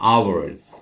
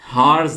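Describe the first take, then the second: First: The word begins with a vowel sound. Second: The word begins with an h sound. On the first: The speaker calls it right. "यहां पे H silent है" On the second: The speaker calls it wrong. "हार्स नहीं पढ़ना इसको"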